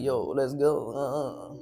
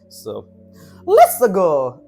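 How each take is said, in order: First: It is said in a calm, relaxed way. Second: It is said in an excited, energetic way.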